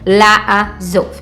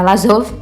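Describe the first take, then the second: First: Two separate a vowels are heard at the start. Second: Only one a vowel is heard at the start. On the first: The speaker calls it right. "Eu tenho que é, pronunciar os dois sons de A" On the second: The speaker calls it wrong. "Eu não posso falar Lazov, Lazov, porque tá errado"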